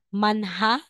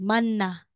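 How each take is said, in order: First: An h sound is heard in the middle. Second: No h sound is heard in the middle. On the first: The speaker calls it wrong. "aside na sasabihin mong manha" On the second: The speaker calls it right. "magiging manna"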